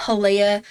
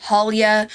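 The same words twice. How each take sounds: First: "Halea" as huh-LAY-uh, stress on LAY; "Halea" in three syllables, middle rhyming with "day"; pronunciation huh-LAY-uh. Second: "Halia" as HAL-ya, stress up front; "Halia" ending in a quick "-ya", no "ay"; pronunciation HAL-ya. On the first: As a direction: try out "Halea" with a long "ay" in the middle. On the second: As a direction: try out "Halia" with the first syllable stressed. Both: Shown as a demonstration. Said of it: "how do you guys say this name?".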